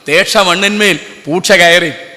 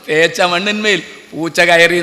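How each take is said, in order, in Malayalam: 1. നടുവിലെ വ്യഞ്ജനങ്ങൾ 'sh' ആയി ഉച്ചരിക്കുന്നു. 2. നടുവിലെ വ്യഞ്ജനങ്ങൾ 'ch' ആയി ഉച്ചരിക്കുന്നു. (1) "അതിലെന്തോ കുഴപ്പമുണ്ടെന്ന് തോന്നി എനിക്ക്" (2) "ഷായും ചായും നമ്മളുടെ വ്യത്യാസം"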